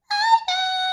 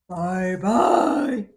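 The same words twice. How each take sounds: First: It is said in a high squeaky voice. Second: It is said in a deep gruff voice.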